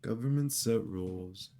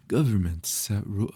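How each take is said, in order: First: Said in the usual way. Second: Loud bright anime character voice; VTuber anime voice. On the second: Shown as a demonstration. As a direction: voice it like an anime streamer. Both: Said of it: "my VTuber anime voice".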